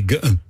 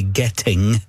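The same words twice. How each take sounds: First: The T and G are dropped, Borders style. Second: The T and final G are clearly sounded.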